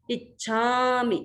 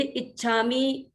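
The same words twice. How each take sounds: First: इच्छामि with a long drawn छा, slowly; इच्छामि with a lengthened छा. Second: इच्छामि with a short, clipped छा and a softened छ; wrong short vowel. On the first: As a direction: stretch the छा in इच्छामि. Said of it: "छा को थोड़ा सा आ आकार का थोड़ा सा लंबा किया". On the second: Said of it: "ऐसे बोलते हैं तो फिर वो अशुद्ध हो जाता है". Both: Shown as a demonstration.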